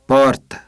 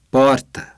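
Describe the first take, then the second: No difference in how they are said.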